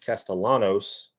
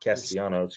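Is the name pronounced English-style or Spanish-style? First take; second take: English; Spanish. First: The name is pronounced in an English way. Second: The name is pronounced in a Spanish way. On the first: This is the form the player prefers. The speaker calls it right. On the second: This is the form the player does not want. The speaker calls it wrong.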